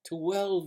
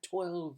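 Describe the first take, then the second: First: It starts with an extra unstressed syllable. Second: It is said as one plain syllable.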